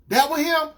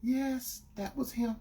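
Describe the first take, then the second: First: Louder, higher, disbelieving question; incredulous boyfriend. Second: Softer, slightly higher, meek admission; retold girlfriend. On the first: Retold or imitated. Boyfriend realizing who it was, shocked. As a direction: throw it back as a shocked question. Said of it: "I said". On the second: Girlfriend admitting who it was, imitated meekly. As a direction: imitate her quietly owning up. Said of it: "She said".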